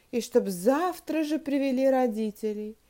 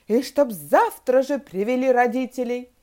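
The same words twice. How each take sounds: First: Said in the usual way. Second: Loud, emphatic order; angry shout. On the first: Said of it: "стала вслух читать". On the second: A narrator's reading. Teacher demanding parents after expelling pupils, shouting angrily. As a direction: bellow a final demand. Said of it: "закричала она страшным голосом".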